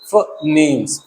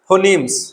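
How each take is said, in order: First: The first vowel is a short reduced 'uh'. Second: The first vowel is a full 'o' sound. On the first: The speaker calls it right. "इसका सही sound हो गया फनीम" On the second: The speaker calls it wrong. "Indian English... तो हम क्या बोलेंगे इसको? फोनीम्स, ऐसे"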